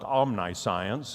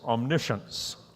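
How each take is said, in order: First: The word is pronounced the way it looks. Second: The word is pronounced unlike its spelling suggests. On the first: The speaker calls it wrong. "It looks like omniscience, and I've heard it pronounced or mispronounced that way" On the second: The speaker calls it right. "but it's omniscience"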